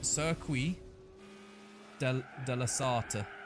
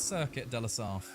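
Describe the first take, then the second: First: The name is said with a French accent. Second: The name is said with an English accent. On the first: This is how a French speaker says it. "there was a French guy that said it was" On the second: This is how the speaker will say it from now on. "I will be pronouncing it as"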